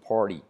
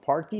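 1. La R en la palabra es suave. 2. La R en la palabra es fuerte. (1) "la R suave" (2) "No party"

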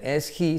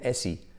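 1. El sonido de la h en he se pronuncia. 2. El sonido de la h en he se omite. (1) "No dicen is he" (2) "en medio de la frase, nunca la pronuncian"

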